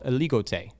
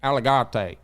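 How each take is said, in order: First: The name is said with French pronunciation. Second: The name is said with an American Texan pronunciation. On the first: The speaker calls it right. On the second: The speaker calls it wrong.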